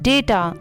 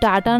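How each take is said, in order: First: The first vowel sounds like 'ay'. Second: The first vowel sounds like 'ah'. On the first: The speaker calls it right. "इसकी correct pronunciation होती है डेटा" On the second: The speaker calls it wrong. "इसको हम डाटा नहीं बोलते"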